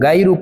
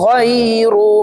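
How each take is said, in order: First: The word begins with a plain hard g sound. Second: The word begins with a throaty gh sound. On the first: The speaker calls it wrong. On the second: The speaker calls it right.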